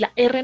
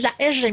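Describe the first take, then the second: First: The R is said as a plain Spanish R. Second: The R is said with a hissing, assibilated sound. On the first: "la R normal" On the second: "sino que es la R"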